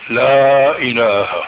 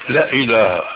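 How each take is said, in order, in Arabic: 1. تُمدّ حركة 'la' حركتين. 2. تُنطق حركة 'la' قصيرة. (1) "فبدك تمد حركتين" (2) "تكاد تقول لا إله"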